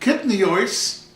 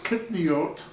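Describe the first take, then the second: First: It is said in an Ashkenazic Hebrew pronunciation. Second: It is said in a non-Ashkenazic Hebrew pronunciation.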